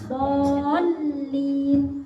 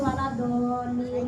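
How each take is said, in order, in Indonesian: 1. Bunyi L itu dobel dan ditekan. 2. Bunyi L itu pendek dan ringan. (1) "harusnya ditekan dolin ya, lamnya itu ada tasdid" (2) "ndak boleh moro dibacanya cuman apa jenenge waladolin"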